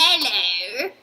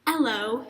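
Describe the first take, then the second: First: Hammed-up Australian greeting, rising swoop; exaggerated mock-Australian twang; faux Australian accent. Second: Cheerful, mild mock-Australian greeting; lightly faked Australian accent, rising; a touch of cheery Australian; faux Australian accent. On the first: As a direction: overdo a cheery Australian accent. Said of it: "Fox Australian accent". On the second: A narrator's reading. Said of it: "cheerfully in a Fox Australian accent".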